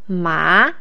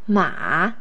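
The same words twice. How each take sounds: First: The pitch starts mid and rises high. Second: The pitch falls low, then rises again. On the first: It means hump. "the second tone is the rising tone... starts mid-tone and rises to a high tone" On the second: It means horse. "the third tone is the falling rising tone"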